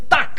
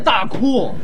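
First: It is said as the English word duck. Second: It is said as two Chinese syllables, da ku. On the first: The speaker calls it right. "鸭子念duck" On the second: The speaker calls it wrong. "不念大哭"

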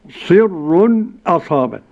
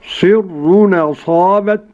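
First: A brief silent pause comes before the glottal stop. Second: The glottal stop is dropped and the words run together. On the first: "والسكت" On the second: "النقل"

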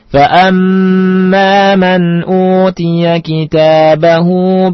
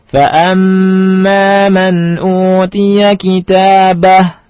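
First: The final vowel of kitabahu is lengthened. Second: The final vowel of kitabahu is dropped. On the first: The reading continues on without stopping. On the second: The reading stops at this word.

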